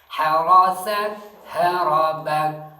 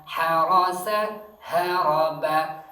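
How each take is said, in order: Both takes have the same delivery.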